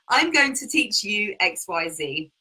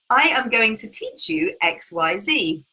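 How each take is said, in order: First: I am is shortened into one syllable. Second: I am is said as two full words. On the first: It sounds relaxed and conversational. The speaker calls it right. "we just cut everything down and use an apostrophe" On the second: It sounds stiff and robotic. The speaker calls it wrong. "So it sounds really robotic"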